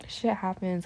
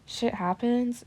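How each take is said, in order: First: Said in the usual way. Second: Happens punched higher; stress on happens. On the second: Real, not acted. Insisting to viewers that shit happens, happens stressed. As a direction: lean hard on happens. Repeats phrase, second time emphasized.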